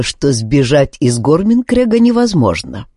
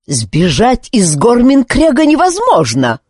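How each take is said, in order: First: Said in the usual way. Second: High, raised shout of the commander; commander's shout. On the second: Acted. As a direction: shout the rule at the prisoner. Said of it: "закричал Друт-командор". (командор кричит на Зара, высоко и громко)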